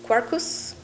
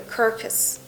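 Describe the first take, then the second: First: The word is pronounced the Latin way. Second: The word is pronounced the ordinary English way. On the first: "if I was pronouncing it as Latin" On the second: "I hope I'm saying it correctly"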